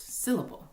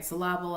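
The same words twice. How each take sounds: First: "Syllable" as SIL-uh-bul, higher; "Syllable" stressed on the first part; correct pronunciation. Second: "Syllable" as suh-LAH-bul; "Syllable" stressed wrongly on the middle. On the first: Teacher correcting the mispronounced word, "Syllable" as SIL-uh-bul. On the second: Teacher showing a known word said wrong, "Syllable" as suh-LAH-bul. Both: Shown as a demonstration. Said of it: "but it's not correctly pronounced".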